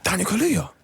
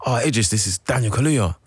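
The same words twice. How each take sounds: First: High called-out name; imitating Idris calling out. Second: Said in the usual way. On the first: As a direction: call his name across the street. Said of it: "He was like". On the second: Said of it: "He goes".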